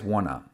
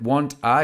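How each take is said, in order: First: The two words merge into one reduced form. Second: The two words are said fully and separately.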